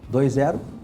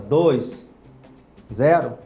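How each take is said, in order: First: The two numbers run together without a pause. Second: A clear pause separates the two numbers. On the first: It could be heard as twenty. "dois zero seria vinte" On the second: Two separate digits are meant. "se eu der uma pausa"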